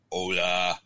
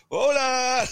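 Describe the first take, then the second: First: Put-on a slightly louder Spanish-accent hola, called out to the locals in passing; light Spanish-accent hola to strangers at a pub; best Spanish voice. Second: Much higher, louder hola from a crowd of drinkers; imitating the locals' loud, high cheer back; locals calling back. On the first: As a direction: greet them with your best Spanish accent. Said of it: "in my best sort of Spanish voice". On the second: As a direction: boom it back like a whole pub raising glasses. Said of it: "they all lifted up the glasses to me and went".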